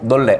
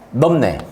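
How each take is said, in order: First: The middle consonants are pronounced as a double l. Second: The middle consonants are pronounced as an m-n sequence. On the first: "에너지를 좀 더 빼잖아요" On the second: "에너지를 넣어야 되고"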